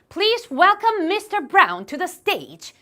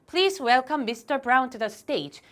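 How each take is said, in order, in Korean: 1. 생생하고 강한 감정을 실어 읽었어요. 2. 감정 없이 밋밋하게 읽었어요. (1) "이런 식으로 감정을 실어서 읽기" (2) "이런 감정이면 만점 받기 어려운"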